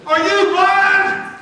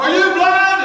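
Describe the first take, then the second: First: Yelled at the referee, high and loud; furious coach-side yell; hollering. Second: Loud high yell at the ref; hollering. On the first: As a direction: holler it across the field. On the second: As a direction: shout it again, full voice. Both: Retold or imitated. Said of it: "And I hollered".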